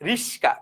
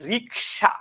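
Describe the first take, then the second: First: The s sound comes before the k sound. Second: The k sound comes before the s sound. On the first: "রিক্সাকে যদি আমরা বলি রিস্কা" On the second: "যেমন রিক্সা"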